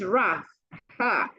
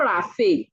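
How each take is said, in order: First: It is said as two syllables, raf-ha. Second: It is said like the name Raphael. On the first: The speaker calls it right. "It's RAF ha" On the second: The speaker calls it wrong. "It's not Raphael"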